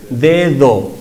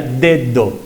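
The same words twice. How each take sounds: First: "dedo" with the second D soft, air flowing between teeth. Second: "dedo" with both D fully stopped. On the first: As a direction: let the air slip through on the second D of "dedo". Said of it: "en la segunda no hay obstrucción del aire y fluye". ("dedo" con la segunda D suave, fricativa) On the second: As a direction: say "dedo" with two hard Ds, tongue blocking air each time. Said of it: "Si fueran iguales sería dedo". ("dedo" con las dos D oclusivas) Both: Shown as a demonstration.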